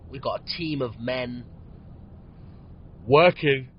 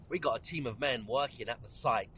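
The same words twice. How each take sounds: First: Words stretched by a real yawn; yawning through it. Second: Said in the usual way. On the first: Real, not acted. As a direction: say it mid-yawn. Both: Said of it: "I always yawn when I'm podcasting".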